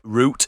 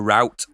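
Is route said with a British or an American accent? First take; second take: British; American. First: It is said with a London-style British pronunciation. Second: It is said with an American pronunciation.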